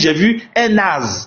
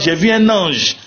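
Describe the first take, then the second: First: The last word has a plain vowel and ends 'z'. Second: The last word has a nasal vowel and ends 'zh'.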